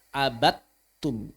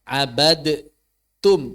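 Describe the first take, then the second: First: The d merges fully into a long t. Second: A separate d sound is heard before the t. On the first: The speaker calls it right. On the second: The speaker calls it wrong.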